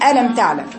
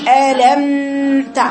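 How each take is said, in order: First: The meem sound is cut off abruptly. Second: The meem sound is drawn out too long. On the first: "قطعت الصوت" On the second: "خليتيها رخاوه"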